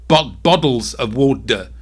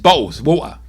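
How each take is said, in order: First: The middle T sounds are said like D. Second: The middle T sounds are dropped entirely. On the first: This is how Americans say it. "Americans try and do a D there. They'll go" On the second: This is how people where the speaker is from say it. "it's just silent. It's a silent T"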